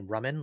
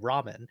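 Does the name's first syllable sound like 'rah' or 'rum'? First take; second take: rum; rah. First: The first syllable sounds like rum. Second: The first syllable sounds like rah. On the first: This is the name's own pronunciation. The speaker calls it right. "like rum and coke" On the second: This is how others mispronounced the name. The speaker calls it wrong. "people with Southern accents go by ramen"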